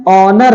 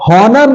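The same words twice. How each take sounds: First: Said in the usual way. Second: हॉनर with the h sounded, pitched higher; higher-pitched हॉनर with an initial h; wrong pronunciation. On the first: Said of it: "बिल्कुल silent होता है". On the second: Shown as a demonstration. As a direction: misread honour with an audible h, हॉनर. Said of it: "नहीं है".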